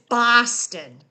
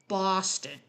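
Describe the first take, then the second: First: It is said in a local Boston accent. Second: It is said in a general American accent. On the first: It is how locals say the name. "the correct pronunciation is Boston, ... only for native Bostonians" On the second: It is how outsiders say the name. "The rest of us say Boston"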